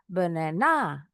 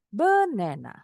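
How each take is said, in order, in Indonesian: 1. Penekanannya ada di suku kata terakhir. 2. Penekanannya ada di suku kata pertama. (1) "Atau di akhir" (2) "taruh di awal"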